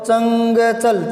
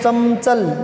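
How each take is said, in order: First: A velar ng sound comes before the ch. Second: An m sound comes before the ch. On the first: "क वाला पंचम लगा देंगे" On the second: "मैं लगाएं पंचम"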